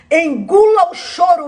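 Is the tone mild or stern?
stern. It is said in a stern, scolding tone. "era assim"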